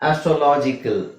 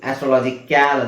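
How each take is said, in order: First: The final syllable is a short, reduced 'kul'. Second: The final syllable is a full, open 'kyal'. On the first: The speaker calls it right. "ಕಲ್ ಅಂತ ಹೇಳ್ತೀವಿ" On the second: The speaker calls it wrong. "ಆಸ್ಟ್ರೋಲಾಜಿಕ್ಯಾಲ್ ಅಂತ ಹೇಳಲ್ಲ"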